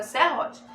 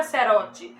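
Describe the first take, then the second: First: "serrote" with a strong H-like R, like "sehote". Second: "serrote" with a weak tapped R, like "serote". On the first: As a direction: give "serrote" its breathed double R, no tap. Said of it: "a palavra é serrote". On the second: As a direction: soften the double R in "serrote" to a single tap. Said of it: "A palavra não é serrote". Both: Shown as a demonstration.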